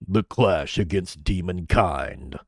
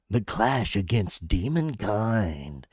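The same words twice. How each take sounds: First: The voice is deep, gritty and bass-heavy. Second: The voice is thin, without grit or bass. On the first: It sounds menacing. The speaker calls it right. "You have to have grit and depth and bass to your voice" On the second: It sounds like the trailer's announcer. The speaker calls it wrong. "You don't do it like this. This is what he's doing"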